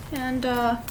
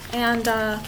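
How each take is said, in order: Both takes have the same delivery.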